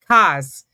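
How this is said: It is said with a New York accent. "My son now has a New York accent, but he says cars"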